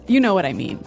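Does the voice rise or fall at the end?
fall. It is said as a statement, falling.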